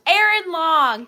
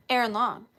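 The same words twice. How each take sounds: First: Loud, slow announcement of the name; calling out a name. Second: Said in the usual way. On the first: Real, not acted. Host calls out the winner's name, loud and drawn out. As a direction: call the name out to the whole room.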